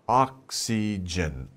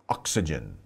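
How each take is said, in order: First: The word is said slowly with every syllable clear. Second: The word is said fast with syllables reduced.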